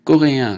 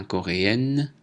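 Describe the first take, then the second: First: Coréen ending in a nasal vowel, no n; coréen, louder, finishing on nasal in; masculine pronunciation. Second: Coréenne ending in èn, n sounded; coréenne with an oral vowel before n; feminine pronunciation. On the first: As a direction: keep the n of coréen silent. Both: Shown as a demonstration. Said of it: "prononciation différente".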